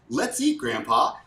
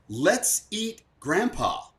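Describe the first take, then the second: First: It is said in a happy, excited way. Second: It is said in a sinister, evil way.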